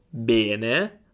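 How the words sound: The first E is a closed vowel. This is the speaker's own and Milan's pronunciation. "Io dico bene, bene"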